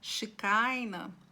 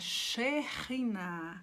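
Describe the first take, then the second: First: The middle consonant is a hard k sound. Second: The middle consonant is a rasped h sound. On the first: The speaker calls it wrong. "Quem usa a pronúncia de Shekinah, está modificando o nome" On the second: The speaker calls it right. "é Sheriná"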